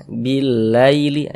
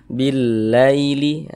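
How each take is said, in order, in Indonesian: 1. Suku kata terakhir diucapkan dengan lembut dan halus. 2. Suku kata terakhir diucapkan dengan lembut dan halus.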